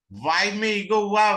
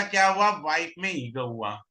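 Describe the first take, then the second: First: wife में ego हुआ repeated higher and louder, stress on हुआ; teacher's emphatic repeat, हुआ pressed hard. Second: Said in the usual way. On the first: Shown as a demonstration. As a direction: drive the point home by repeating it with weight on हुआ.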